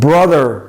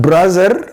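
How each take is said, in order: First: The middle consonant is a soft th. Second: The middle consonant sounds like z. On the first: The speaker calls it right. "it's brother" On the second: The speaker calls it wrong. "not brother"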